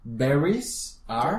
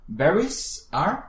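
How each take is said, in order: First: "Berries are" very slow, clear English r; "Berries are" drawn out as a model. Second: "Berries are" very slow, higher and louder; a loud slow "Berries are" model to repeat; slow emphatic model. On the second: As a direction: push "Berries are" out slowly for her to copy. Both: Shown as a demonstration.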